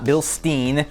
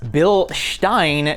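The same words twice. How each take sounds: First: The name is said with an English pronunciation. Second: The name is said with a German pronunciation. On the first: The speaker calls it wrong. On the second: The speaker calls it right. "the correct German pronunciation"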